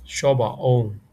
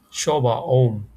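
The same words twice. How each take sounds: First: "Shoba om" repeated, falling "om"; repeat for students. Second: "Shoba om" with a falling "om"; Burmese model phrase. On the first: Teacher repeats the discount phrase. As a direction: say "Shoba om" again. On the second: Teacher models asking for a discount. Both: Shown as a demonstration. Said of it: "we can ask".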